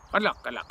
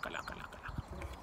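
First: Said in the usual way. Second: Trailing off into a whisper; fading whisper. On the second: Acted. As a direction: whisper the farewell away. Waving someone off.

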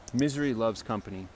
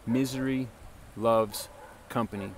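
First: Said in the usual way. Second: "Misery ... loves ... company", a pause after each word; word-by-word emphasis. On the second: Shown as a demonstration. Preacher driving home a saying to listeners, word-by-word emphasis.

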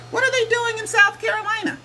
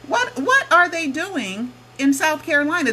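First: Much higher, disbelieving repeat of the question; incredulous squeak. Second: Higher, insistent repeat, still baffled; puzzled question. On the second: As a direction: press the question once more. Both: Real, not acted.

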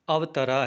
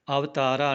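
First: "ਅਵਤਰਾ" with short a after the t; short middle vowel. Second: "ਅਵਤਾਰਾ" with long aa after the t; long middle vowel. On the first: Teacher showing correct word, "ਅਵਤਰਾ" with short ta. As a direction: keep the t syllable short in "ਅਵਤਰਾ". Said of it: "ਤੱਤਾ ਜਿਹੜਾ ਹੈ ਇਹ ਮੁਕਤਾ ਹੈ". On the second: Teacher showing the mistake, "ਅਵਤਾਰਾ" with long taa. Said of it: "ਅਵਤਾਰਾ ਨਹੀਂ ਬੋਲਣਾ". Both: Shown as a demonstration.

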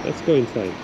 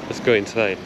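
The two takes are said the same way.

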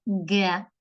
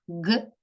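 First: Г said as its name, "he", drawn out; name the letter г with a long e. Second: Г as a bare consonant, not its letter name; sound of г. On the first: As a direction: say г slowly as "he". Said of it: "буква г". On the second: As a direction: voice г with a short neutral vowel. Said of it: "Звук г". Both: Shown as a demonstration.

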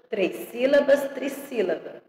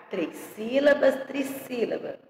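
No difference in how they are said.

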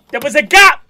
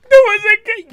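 First: Loud, high exclamation; outraged shout. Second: Very high, loud squeal; high-pitched outrage. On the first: Reactor spots a gap on the shelf, outraged shout. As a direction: call out the fault at full volume. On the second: Reactor protests about the gap, high squealed shout. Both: Real, not acted.

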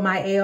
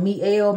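First: Mielle pronounced "my-EL". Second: Mielle pronounced "mee-EL". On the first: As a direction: open Mielle with "my", not "mee". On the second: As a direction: open Mielle with "mee", not "my". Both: Shown as a demonstration. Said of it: "if I'm pronouncing it wrong".

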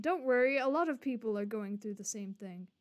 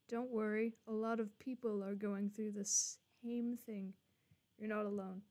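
First: Mock reassurance. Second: Quiet, gentle comforting line; soft reassurance. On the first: Streamer parroting the game's comfort line back, mocking. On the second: Acted. Streamer reading the game's comfort line, soft and gentle.

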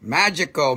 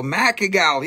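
First: Said in the usual way. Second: Macagal, magical said with a hard k sound; mangled pronunciation. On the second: Shown as a demonstration. Seller joking about magical cookies, mispronounced as "Macagal". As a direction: say "Macagal" with MACK up front and -agal after. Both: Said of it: "What does that mean".

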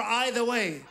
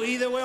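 First: "either" said EYE-ther, like the word eye. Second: "Either" said EE-ther, with a long ee. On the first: Comedian asking English speakers which is right, saying "either" as EYE-ther. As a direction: start "either" with an EYE sound. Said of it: "Then I go". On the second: Comedian asking English speakers which is right, saying "Either" as EE-ther. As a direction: start "Either" with an EE sound. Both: Shown as a demonstration.

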